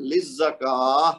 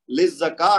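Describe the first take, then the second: First: Slow "للزکا", kaa held two counts into h; stretch, then ha. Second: "للزکا" cut short on kaa, without final h; ha left off. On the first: Teacher shows what to say, stretched kaa then h. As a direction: stretch "للزکا" and finish on a breathed h. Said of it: "دو حرکت کھینچ کے پھر ہا کی آواز نکالنی ہے". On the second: Teacher shows what not to say, kaa lacking its h. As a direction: say "للزکا" with no breathed h at the end. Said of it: "نہیں کہنا". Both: Shown as a demonstration.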